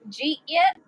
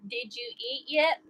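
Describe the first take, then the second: First: The words are squeezed together into two syllables. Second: Every word is said separately and fully.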